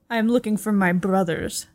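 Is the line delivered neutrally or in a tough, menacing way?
tough. It is said in a tough, menacing way. "Can you say that in a more badass way? Like you're wielding a knife?"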